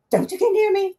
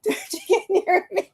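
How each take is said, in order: First: Pitched way up, backing off in mock fright; hammed-up scared girl, higher; mock frightened plea. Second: Laughing through a high, mock-scared plea. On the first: Friend scared of the psychic, higher mock fright. Julie scared, pulling away. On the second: Retelling the scared friend, laughing mock fright. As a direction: giggle it out, higher, half-scared.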